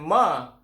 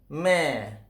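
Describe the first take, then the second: First: The syllable is said with a heavy, dark vowel. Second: The syllable is said with a light, thin vowel. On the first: The speaker calls it wrong. "Ma itu macam seolah-olah tebal bagi mim tu" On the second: The speaker calls it right. "yang sebenarnya adalah me"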